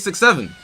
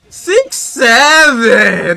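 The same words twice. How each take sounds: First: It is said in a plain, flat voice. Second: It is said in a wailing, wavering voice.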